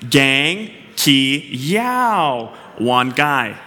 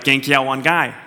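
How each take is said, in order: First: Gang ki yao wan gai drawn out syllable by syllable, very slow; slow spelled-out Thai. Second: Said in the usual way. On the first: Shown as a demonstration. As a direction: stretch every syllable of Gang ki yao wan gai so the room can follow. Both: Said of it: "say it out with me".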